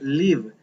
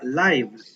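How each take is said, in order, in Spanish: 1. Se pronuncia como el verbo. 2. Se pronuncia como el sustantivo. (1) "cuando es verbo, se pronuncia live" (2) "cuando estamos hablando de una red social donde hay un en vivo... es un nombre... entonces se pronuncia live"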